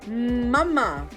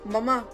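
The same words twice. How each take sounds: First: The first M sound is held long. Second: The first M sound is cut short. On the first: The speaker calls it right. "It needs one full breath" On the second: The speaker calls it wrong. "rather than mama"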